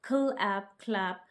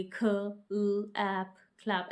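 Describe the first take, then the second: First: ख with ल kept together, then ऐप, then क्लैप; teacher showing the right way to read क्लैप; blended beginning. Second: ख, ल, ऐप said as separate sounds before क्लैप; teacher showing the wrong way to read क्लैप; wrong segmented blend. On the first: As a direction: keep the ख and ल blend joined in क्लैप. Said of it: "हम इसको इकट्ठा पढ़ लेंगे". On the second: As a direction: pull ख and ल apart, the wrong way. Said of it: "ऐसे नहीं पढ़ेंगे". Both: Shown as a demonstration.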